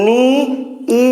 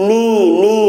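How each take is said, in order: First: নি, a pause, then a separate ই; split vowels. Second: নি as one long syllable, repeated; joined vowels. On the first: Teacher rejecting the wrong reading, vowels split. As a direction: break নি and ই into two sounds. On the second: Teacher showing students the right reading, vowels joined. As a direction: run the two ই sounds together in নি. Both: Shown as a demonstration. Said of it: "একসাথে".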